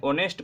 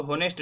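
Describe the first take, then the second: First: ऑनेस्ट said with a silent h, starting on the vowel; correct pronunciation. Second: होनेस्ट with a sounded h at the start; wrong pronunciation. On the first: Teacher to students: ऑनेस्ट with silent h. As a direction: open ऑनेस्ट straight on the vowel, no h sound. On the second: Teacher shows students the wrong होनेस्ट with h. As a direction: breathe a clear h into होनेस्ट. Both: Shown as a demonstration. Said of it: "इसको होनेस्ट नहीं पढ़ते".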